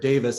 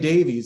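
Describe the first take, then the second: First: The name ends with a 'vis' sound. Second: The name ends with a 'veez' sound. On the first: This is how the family itself says it. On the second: This is how Americans usually say it.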